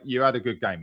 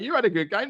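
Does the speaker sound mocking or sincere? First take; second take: sincere; mocking. First: It sounds kind and sincerely consoling. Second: It sounds teasing and mockingly gloating. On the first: The compliment is meant as genuine comfort. "Stu might say it more like" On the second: The compliment is meant as a taunt. "walking off the pitch laughing"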